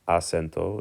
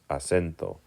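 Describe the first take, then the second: First: The stress falls off the middle syllable. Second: The stress falls on the middle syllable. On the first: The speaker calls it wrong. "It's not acento" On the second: The speaker calls it right. "it's acento"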